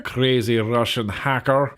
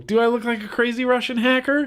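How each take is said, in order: First: Low, slow mock Russian accent; terrible Russian accent. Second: High, rising question in own accent; incredulous question. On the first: Vlogger mimicking a crazy Russian hacker, terrible Russian accent. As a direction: drop the pitch and do a bad Russian accent. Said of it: "that was a terrible Russian accent". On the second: Real, not acted. Vlogger questioning a viewer's lookalike comment, incredulous. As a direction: throw it back as a high-pitched question.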